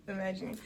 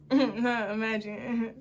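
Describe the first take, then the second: First: "Imagine" tossed off in a quick laugh; laugh, then say "Imagine" again. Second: Slow, soft echo of "Imagine" through laughter; laughing echo. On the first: Retelling his awkward joke, laughing it off. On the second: Repeating his line to the audience, slowly laughing. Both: Retold or imitated. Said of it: "Imagine if you just went home".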